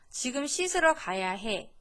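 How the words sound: The voice is soft and gentle. The child may think it is playful or okay. The speaker calls it wrong. "아까 일, 이, 삼으로 전했던 메시지"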